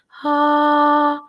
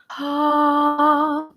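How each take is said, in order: First: The vowel starts with breathy air before voicing. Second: The vowel starts with breathy air before voicing.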